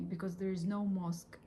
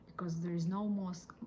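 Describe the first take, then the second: No difference in how they are said.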